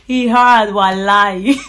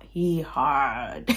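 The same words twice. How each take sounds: First: Loud, laughing burst; louder, laughing through the words; laughing exclamation. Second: Said in the usual way. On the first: Real, not acted. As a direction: crack up and shout it out. Laughing repeat of sister's phrase.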